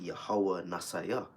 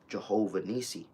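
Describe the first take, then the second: First: The name begins with a 'Yah' sound. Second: The name begins with a 'Jeh' sound. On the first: The speaker calls it right. "the correct pronunciation of that would be" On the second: The speaker calls it wrong. "it says in the English"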